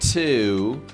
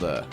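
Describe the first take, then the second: First: The word is said fully with a clear vowel. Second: The word is said quickly and quietly, reduced. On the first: "it does technically have the pronunciation to" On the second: "we make it as quick and quiet as possible"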